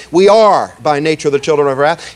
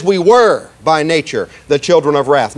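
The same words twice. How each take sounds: First: "are" leaned on in the wrong reading; stress on are. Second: "were" leaned on as the true reading; stress on were. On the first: Preacher showing the congregation the wrong reading, stress on "are". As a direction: stress the word "are" as the misquote. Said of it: "He doesn't say". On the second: Preacher giving the congregation the true reading, stress on "were". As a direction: stress the word "were" to mark the past. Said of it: "He says". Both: Shown as a demonstration.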